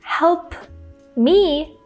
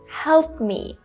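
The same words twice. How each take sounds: First: The P sound is released with air. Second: The P sound is held without air. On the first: "instead of releasing the air and saying" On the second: "I'm stopping the airflow"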